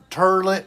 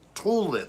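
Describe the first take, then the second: First: The first syllable sounds like 'tur'. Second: The first syllable sounds like 'tool'. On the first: This is a pronunciation the speaker does not use. "I don't say turlet" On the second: This is how the speaker usually says it. "like a tool it"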